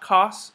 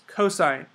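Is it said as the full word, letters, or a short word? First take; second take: short word; full word. First: It is said as one short syllable. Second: It is said as the full two-syllable word. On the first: The speaker calls it wrong. "it's not cos" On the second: The speaker calls it right. "That's how you pronounce it"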